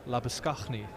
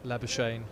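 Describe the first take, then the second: First: The name is said the native family way. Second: The name is said the common anglicised way. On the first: The speaker calls it right. "is the the correct way" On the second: The speaker calls it wrong. "it's not the correct way to say it"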